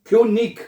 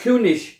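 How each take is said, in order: First: The word ends with a hard g sound. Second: The word ends with a soft sh sound. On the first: "ईग और इश" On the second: "ईग और इश"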